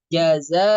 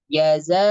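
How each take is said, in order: First: The middle consonant is a buzzing z sound. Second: The middle consonant is a buzzing z sound.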